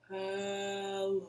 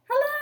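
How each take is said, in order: First: It is said in a very low voice. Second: It is said in a very high voice.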